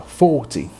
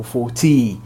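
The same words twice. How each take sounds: First: FORTY stressed on FOR, light "ty"; stress on four. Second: FORTY wrongly stressed on the final "TY". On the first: Teacher showing the correct stress, FOR stressed in forty. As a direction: hit FOR in FORTY, drop the ending. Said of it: "é o four que é sílaba tônica". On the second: Teacher showing what to avoid, forty stressed on TY. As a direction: push the last syllable of FORTY. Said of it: "e não o forty". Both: Shown as a demonstration.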